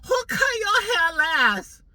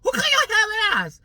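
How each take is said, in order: First: High, slow, put-on stylist voice; nosy hairdresser in a high mock voice. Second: High, loud put-on stylist voice; nosy hairdresser asks again, high and loud; mock stylist voice. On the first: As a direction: ham up the nosy stylist, pitched way up. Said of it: "she goes". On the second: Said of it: "She's like".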